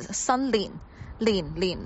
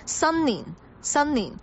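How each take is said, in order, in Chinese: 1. 第二个音节开头是 l 音。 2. 第二个音节开头是 n 音。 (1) "千万不要说成了新年，那个就是一个懒音" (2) "我们说的新年就是新年"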